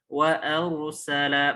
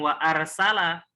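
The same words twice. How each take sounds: First: The r is pronounced thick and heavy. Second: The r is pronounced thin and light. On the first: The speaker calls it right. "dibacanya rok tebal ya" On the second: The speaker calls it wrong.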